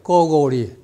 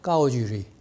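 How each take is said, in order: First: The middle syllable sounds like 'gou'. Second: The middle syllable sounds like 'ju'. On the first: This is the reading that is pushed by others. "중국 사람들 들어보면요. 까오고리 그래요" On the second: This is the standard modern reading. "원래 정확하게 현대 북경어로 하면 까오주리입니다"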